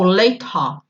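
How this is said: It is said in a British accent.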